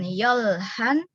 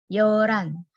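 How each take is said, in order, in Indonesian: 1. Bunyi h jelas diucapkan. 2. Bunyi h samar, hampir hilang. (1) "Jadi bacanya bukan yolhan" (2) "tapi yoran. Hanya samar"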